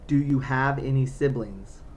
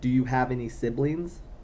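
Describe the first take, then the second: First: The question is spoken slowly. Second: The question is spoken quickly. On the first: The speaker calls it right. "Sometimes you have to speak slowly to her" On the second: The speaker calls it wrong. "Too fast"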